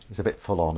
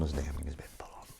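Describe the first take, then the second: First: Said in the usual way. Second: Hushed, whispered aside; very soft, voiceless confiding tone; confidential whisper. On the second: Pretend. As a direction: whisper it behind someone's back. Confidential aside about a fan.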